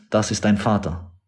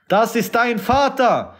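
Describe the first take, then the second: First: Said in the usual way. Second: Raised, forceful repeat with Vater driven down at the end; preaching emphasis. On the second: Acted. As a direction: throw the line out like an accusation from the pulpit. Repeats line, then raises it.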